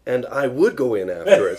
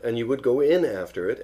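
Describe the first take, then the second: First: Loud, eager interruption; excited. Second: Said in the usual way. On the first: A narrator's reading. Pooh breaking into Piglet's trap plan, excited. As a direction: jump in excitedly, louder. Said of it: "said Pooh excitedly".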